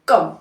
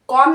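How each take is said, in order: First: The vowel is a short 'uh' sound. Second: The vowel is a rounded 'o' sound. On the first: The speaker calls it right. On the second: The speaker calls it wrong. "कॉम नहीं"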